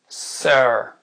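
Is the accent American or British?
American. It is said in an American accent. "l'accent américain après"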